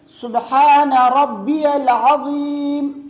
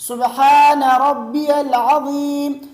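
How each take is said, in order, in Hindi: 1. बीच के शब्द में 'या' की आवाज़ है: 'रब्बियल'। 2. बीच के शब्द में 'या' की आवाज़ है: 'रब्बियल'।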